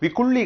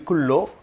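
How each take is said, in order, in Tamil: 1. இந்தச் சொல் 'ee' ஒலியில் முடிகிறது. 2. இந்தச் சொல் 'oh' ஒலியில் முடிகிறது. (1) "விக்குள்ளி கிடையாது"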